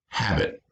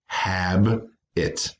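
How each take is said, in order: First: Said in the usual way. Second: "hab-it" in two slow, separate beats; broken by syllable. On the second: Shown as a demonstration. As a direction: split "hab-it" with a clear pause between halves. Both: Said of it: "break them by syllable".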